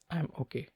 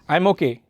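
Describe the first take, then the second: First: It is said quietly with little energy. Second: It is said loudly with lots of energy. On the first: The person has low energy and low mood. "Patients with depression, if you ask how are you, they will just uh, say" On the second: The person has excess energy. "if you ask a mania patient how are you"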